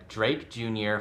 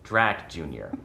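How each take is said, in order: First: "Drake Junior" with a long A like drake; "Drake" rhymes with make; misread name. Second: "Drac Junior" with a short A like Dracula; "Drac" said like the start of Dracula; corrected name. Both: Real, not acted. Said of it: "That's Drac Junior, not Drake".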